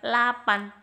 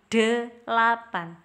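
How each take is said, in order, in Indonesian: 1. Suku kata pertama dihilangkan, jadi tinggal dua suku kata. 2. Ketiga suku kata diucapkan dengan lengkap. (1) "bukan lapan" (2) "tapi delapan"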